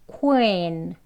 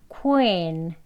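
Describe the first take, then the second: No difference in how they are said.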